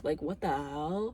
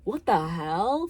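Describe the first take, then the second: First: Mock disbelief. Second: Mock outrage. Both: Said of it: "I'd be like".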